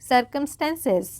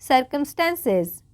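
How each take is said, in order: No difference in how they are said.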